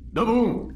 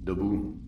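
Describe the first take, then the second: First: Sudden high shout; barked wake-up order. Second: Said in the usual way. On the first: Acted. Guard waking sleeping prisoners, loud shout. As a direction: jolt them awake with a yell.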